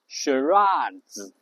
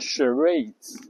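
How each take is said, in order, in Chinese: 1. 这是英式发音。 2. 这是美式发音。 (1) "英式发音呢读charades" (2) "美式呢发charades"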